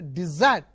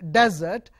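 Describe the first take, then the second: First: The stress is on the second syllable. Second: The stress is on the first syllable. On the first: To abandon or give up someone. "when you change the stress to the second syllable, it is a desert" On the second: A dry, sandy, barren land. "the stress is on the first syllable. Uh, it should be pronounced as desert"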